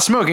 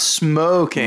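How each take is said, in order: First: The word is said in a plain, neutral way. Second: The word is said with a knowing, suggestive inflection. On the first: Ordinary tobacco smoking is meant. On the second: Smoking drugs is meant.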